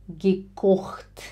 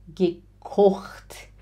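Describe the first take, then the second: The two takes are said the same way.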